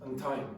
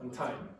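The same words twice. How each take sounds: No difference in how they are said.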